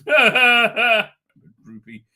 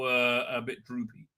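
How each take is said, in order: First: Slow, louder mock whimper through a laugh; half-laughing fake cry. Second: Said in the usual way. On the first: Shown as a demonstration. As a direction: draw it out like a hammed-up sob. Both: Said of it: "She cried".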